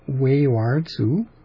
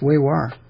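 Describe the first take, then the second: First: The name ends with a 'tsu' syllable. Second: The name ends with an 'r' sound. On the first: The speaker calls it wrong. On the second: The speaker calls it right.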